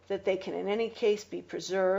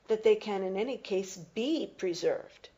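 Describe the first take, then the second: First: The words 'be preserved' carry no special emphasis. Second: The words 'be preserved' carry strong emphasis. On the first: It is a plain statement without signalled doubt. "without that, I might have read it like this" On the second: The writer doubts the conditions can be preserved. "You heard me e- emphasize be preserved"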